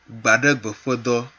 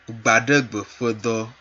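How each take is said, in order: Both takes have the same delivery.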